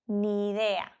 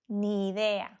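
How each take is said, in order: The two takes are said the same way.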